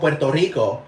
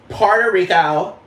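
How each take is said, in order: First: It is said with a Puerto Rican Spanish accent. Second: It is said with a Valley Girl accent.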